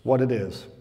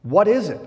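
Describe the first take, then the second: First: "What it is." lower, as a statement; street-name slang. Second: "What is it?" higher and louder, as a question; puzzled question. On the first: Preacher joking about manna's street name, mock slang. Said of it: "they call it by its street name". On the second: Preacher voicing Israelites baffled by manna, puzzled question. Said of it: "manna simply means". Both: Acted.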